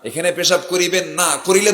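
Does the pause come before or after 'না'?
after. The pause falls after the word না. Urinating here is forbidden, with a fine for doing it.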